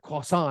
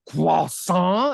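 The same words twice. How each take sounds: First: It is said with a plain English accent. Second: It is said with an elaborate French accent.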